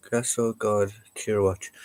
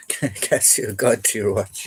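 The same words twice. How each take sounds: First: Said in the usual way. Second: Slow, laughing through it. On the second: Real, not acted. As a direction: chuckle while repeating. Repeats it while laughing.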